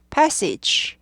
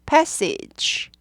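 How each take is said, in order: Both takes have the same delivery.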